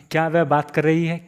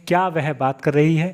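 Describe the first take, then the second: No difference in how they are said.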